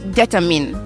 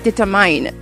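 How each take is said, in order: First: The last syllable sounds like 'min'. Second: The last syllable sounds like 'mine'. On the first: The speaker calls it right. "ça se prononce determine" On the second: The speaker calls it wrong. "j'ai prononcé determine"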